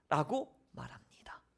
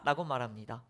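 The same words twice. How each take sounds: First: Whispered aside; 라고 말합니다 whispered, not voiced. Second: Said in the usual way. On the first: Shown as a demonstration. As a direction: whisper the closing tag. Whispered closing tag.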